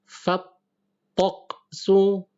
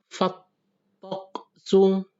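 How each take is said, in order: Both takes have the same delivery.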